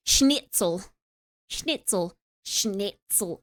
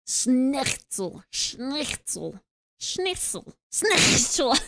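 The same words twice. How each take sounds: First: Said in the usual way. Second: "schnitzel" with a forced throaty rasp; forced German sound. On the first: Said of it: "can't even do a German accent". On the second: Shown as a demonstration. Streamer struggling to sound German, overforced throaty "schnitzel". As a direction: force a harsh back-of-throat scrape into "schnitzel". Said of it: "without forcing it".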